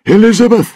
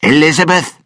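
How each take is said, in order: First: High, loud cry for his daughter; a father's frantic call; desperate shout. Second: Loud, harsh call into the dark; a villain's commanding yell; angry shout. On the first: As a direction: yell her name in panic. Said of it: "he shouted". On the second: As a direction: bark her name to flush her out. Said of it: "and shouted". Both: Acted.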